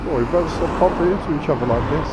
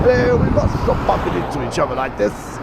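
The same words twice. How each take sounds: First: Quick, hammed-up retelling of the old joke; mock cheesy line. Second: Higher, hammed-up cheesy greeting; comedian's mock neighbour. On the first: Retelling the joke he just told the lady, mock cheesy. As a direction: toss off the cliché in a jokey put-on voice. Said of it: "that age-old joke". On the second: Quoting the comedian's skit about meeting a neighbour, hammed up. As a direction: play the smug neighbour at his car. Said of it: "What a skit that is".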